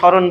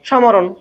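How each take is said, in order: First: The word is said without any m sound. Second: The word is said with a clear m sound. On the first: The speaker calls it right. "ম ফলা উচ্চারণ করি না" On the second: The speaker calls it wrong. "ময়ের উচ্চারণ হওয়ার কথা ছিল না? সমরণ"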